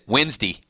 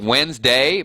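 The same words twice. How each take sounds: First: It is said in a Southern accent. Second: It is said in a standard accent. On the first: "I just went Southern on you guys" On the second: "It's Wednesday"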